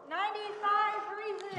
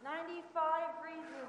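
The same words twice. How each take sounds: First: It is said really loudly. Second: It is said fairly quietly.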